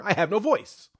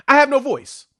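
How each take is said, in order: First: Raspy, strained and worn out; hoarse voice. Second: Raspy, worn-out voice; talking through a hoarse throat. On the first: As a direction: push through a lost voice. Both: Real, not acted. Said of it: "As you can hear".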